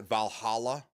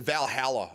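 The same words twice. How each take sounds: First: Valhalla with "hall" in the middle, rising; other region's pronunciation. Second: Valhalla as "val-HAL-uh"; Michigan pronunciation. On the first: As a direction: question Valhalla as "val-HAH-luh". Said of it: "you guys pronounce it Valhalla". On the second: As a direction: say Valhalla with a short a as in "pal". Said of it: "we pronounce it Valhalla up here". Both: Shown as a demonstration.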